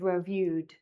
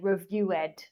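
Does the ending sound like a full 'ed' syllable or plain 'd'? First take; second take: plain d; ed syllable. First: The ending is said as a plain 'd' sound. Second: The ending is said as a full 'ed' syllable. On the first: The speaker calls it right. "instead of" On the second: The speaker calls it wrong. "sometimes you pronounce it like ed"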